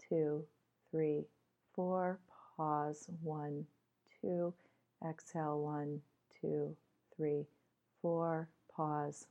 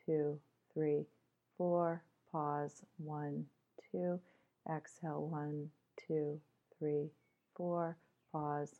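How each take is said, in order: Both takes have the same delivery.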